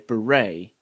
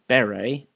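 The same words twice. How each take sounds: First: It is said the American way. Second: It is said the British way.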